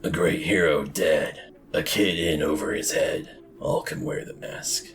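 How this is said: It is read in a gritty noir-detective voice.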